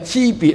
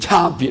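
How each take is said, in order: First: The first syllable is pronounced ci. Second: The first syllable is pronounced chaa. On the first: The speaker calls it right. "所谓痴别咧，即系话喺唔同嘅等级嘅分别" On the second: The speaker calls it wrong. "无差别是错的"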